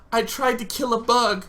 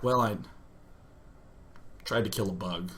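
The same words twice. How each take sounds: First: High, distressed admission; panicked confession. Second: Low, soft, halting admission; pause, then mumble it reluctantly; sheepish confession. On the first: Bleeding son confessing to his mom, panicked confession. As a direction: confess it in a raised, upset voice. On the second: Patient confessing to the doctor, sheepish confession. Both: Retold or imitated.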